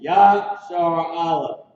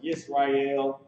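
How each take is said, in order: First: The name is said as two words, ya-shar a-leph. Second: The name is said as three syllables, yis-ra-el. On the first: The speaker calls it right. "It's Yashar Aleph" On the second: The speaker calls it wrong. "It's not pronounced Yisrael"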